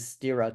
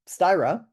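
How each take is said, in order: First: The name is said with a Swedish pronunciation. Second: The name is said with an Americanized pronunciation. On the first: The speaker calls it right. "Swedish pronunciation would be styra" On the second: The speaker calls it wrong. "the Americanized, the bastardized pronunciation"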